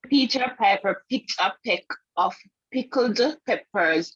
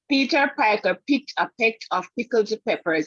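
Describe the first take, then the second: First: It is said at a slower pace. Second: It is said at a faster pace.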